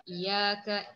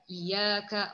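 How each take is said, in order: No difference in how they are said.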